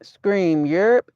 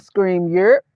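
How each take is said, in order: First: "Europe" lifted a little and rising; emphasis on Europe. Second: "Europe" stressed with a rising end; "Europe" given a light stressed rise; emphasis on Europe. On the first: Real, not acted. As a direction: lean lightly into "Europe" as you read it out. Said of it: "I did put a little emphasis on it". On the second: Retold or imitated. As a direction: replay the read-out, leaning on "Europe". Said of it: "I did put emphasis 'cause I said".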